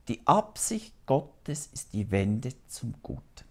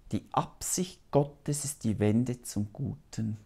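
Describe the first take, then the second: No difference in how they are said.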